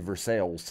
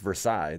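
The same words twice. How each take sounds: First: It is said with a local Kentucky pronunciation. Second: It is said with a French pronunciation. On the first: This is the name of the town in Kentucky. "But we say Versailles" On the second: This is the name of the palace in France. "In France, it's Versailles"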